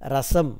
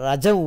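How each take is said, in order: First: The middle consonant is an s sound. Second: The middle consonant is a j sound. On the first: The speaker calls it right. "திருமணத்தில் ரசம் என்று சொல்வார்கள்" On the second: The speaker calls it wrong. "சில வட்டாரத்தில் என்றால் ரஜம் ஊற்று என்று சொல்ல தொடங்கி விடுகிறார்கள்"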